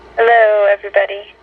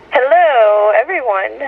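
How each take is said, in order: First: The greeting sounds flat and unenthusiastic. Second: The greeting sounds lively and enthusiastic.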